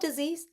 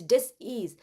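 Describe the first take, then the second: First: The word is said smoothly as one unit. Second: The word is split into dis and ease. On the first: It means an illness. The speaker calls it wrong. "It's not disease" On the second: It means a lack of ease in one's thinking. The speaker calls it right. "it's dis-ease"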